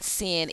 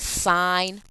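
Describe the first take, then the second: First: The word has a short vowel, like 'sin'. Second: The word has a long vowel, like 'sign'. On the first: The speaker calls it wrong. "It is not sin" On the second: The speaker calls it right. "It is sine theta"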